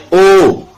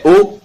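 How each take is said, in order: First: O held long, then falling; sustained O, as a demonstration. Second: Said in the usual way. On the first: Shown as a demonstration. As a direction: draw out the vowel O to double length. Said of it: "Quand on double les O, ça devient". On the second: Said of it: "Quand on double les O".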